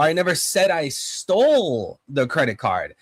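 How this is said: The word stole carries the main stress. The card may have been misplaced rather than taken. "If I emphasize stole"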